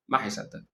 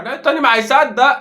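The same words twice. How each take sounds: First: Much softer, lower, under the breath; muttered echo. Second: Louder and higher, fed up; exasperated outburst. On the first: Fan echoing himself, softer deflated mutter. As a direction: repeat it to yourself, deflated. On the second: Fan ranting at his defender, loud exasperated outburst. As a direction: throw the line out in despair. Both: Real, not acted.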